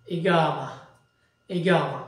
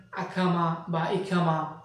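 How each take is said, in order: First: ইগামা with a hard g, long aa, falling; Arabic pronunciation. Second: আকামা, ইকামা with an aspirated kh in place of g; common mispronunciation. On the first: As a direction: model ইগামা as i-GAA-ma, lower and final. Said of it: "কিন্তু আরবি উচ্চারণটা হচ্ছে". (আরবি উচ্চারণে গ দিয়ে ইগামা) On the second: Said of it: "অনেকে উচ্চারণ করেন". (অনেকের মতো খ দিয়ে আকামা বা ইকামা উচ্চারণ) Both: Shown as a demonstration.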